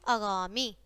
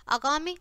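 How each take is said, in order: First: आगामी with a drawn-out "gaa"; correct long vowel. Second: आगामी with the middle "gaa" cut shorter; wrong vowel length. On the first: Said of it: "और फिर शुद्ध है". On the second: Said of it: "पहले हमारी अशुद्ध शब्द है". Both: Shown as a demonstration.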